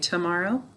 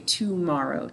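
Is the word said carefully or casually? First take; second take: casually; carefully. First: It is said casually, with an everyday middle vowel. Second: It is said carefully, with an 'ah' middle syllable. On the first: This is how it is usually said in speech. The speaker calls it wrong. "sometimes we say it a little incorrectly" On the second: This is said to help spell the word. The speaker calls it right. "we say tomorrow to spell it"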